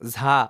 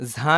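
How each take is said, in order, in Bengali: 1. প্রথম ব্যঞ্জনটি মহাপ্রাণ, শ্বাসযুক্ত উচ্চারণে ছাড়া হয়। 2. প্রথম ব্যঞ্জনটি মহাপ্রাণ, শ্বাসযুক্ত উচ্চারণে ছাড়া হয়।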